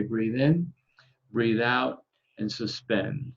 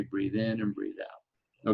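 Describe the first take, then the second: First: Calm guided breathing cue. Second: Slow, drawn-out breathing cue. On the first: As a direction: give the breathing cue evenly. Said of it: "I'll say". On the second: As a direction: stretch the cue out slowly. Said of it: "And then I'll say". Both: Shown as a demonstration.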